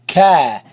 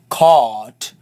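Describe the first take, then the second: First: The vowel is light and open, sounding forward. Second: The vowel is heavy and full, sounding back. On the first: The speaker calls it right. "you say cat" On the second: The speaker calls it wrong. "You don't say caught"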